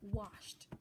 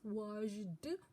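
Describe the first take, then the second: First: The ending is said as a plain t sound. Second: The ending is said as an extra syllable. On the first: The speaker calls it right. "It is pronounced as t" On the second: The speaker calls it wrong. "It's not pronounced as washed"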